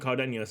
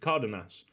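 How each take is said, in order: First: The n is said like 'ny'. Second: The n is said as a plain n. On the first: The speaker calls it wrong. "He's not Cardenas. I was thinking that he had one of them wavy things over his N" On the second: The speaker calls it right. "He's Cardenas"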